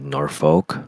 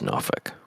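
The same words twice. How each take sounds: First: It is said the way non-Virginians pronounce it. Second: It is said the local way, almost like 'Norfuk'. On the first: The speaker is not from the area. The speaker calls it wrong. "people that don't live in Virginia would say Norfolk" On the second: The speaker is from the area. The speaker calls it right. "but it's Norfolk"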